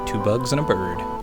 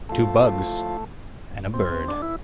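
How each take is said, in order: First: It is said in a plain, casual way. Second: It is said in a dramatic, theatrical way.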